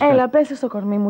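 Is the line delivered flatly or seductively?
flat. It is said in a plain, flat way.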